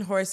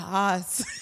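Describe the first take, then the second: First: The word begins with an h sound. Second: The word begins without an h sound. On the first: "or even horse" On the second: "we don't really pronounce the H"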